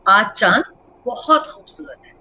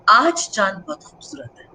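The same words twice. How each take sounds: First: The stress is on बहुत. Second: The stress is on आज.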